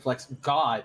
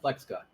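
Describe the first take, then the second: First: The stress falls on the word God. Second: The stress falls on the word Flex. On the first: The speaker calls it right. "It should be Flex God, clearly wants the emphasis on God" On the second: The speaker calls it wrong. "not Flex God"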